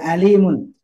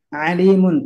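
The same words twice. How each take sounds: First: The word starts with a plain vowel sound. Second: The word starts with a throaty ain sound. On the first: It means painful. The speaker calls it wrong. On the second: It means all-knowing. The speaker calls it right. "Ain termasuk ya"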